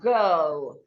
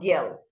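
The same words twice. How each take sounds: First: The vowel is long, shaped by the R. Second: The vowel is short, without the R sound. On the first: The speaker calls it right. "The letter R makes this a long sound" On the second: The speaker calls it wrong. "not girl"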